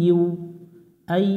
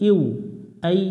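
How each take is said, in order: The two takes are said the same way.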